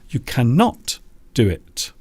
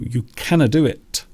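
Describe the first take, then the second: First: Cannot is said in full with every sound. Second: Cannot is shortened to a reduced 'canna'. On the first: The speech is formal. "Formally, you would say cannot" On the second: The speech is informal. "If you are reducing or using a reduction in English, you will say canna"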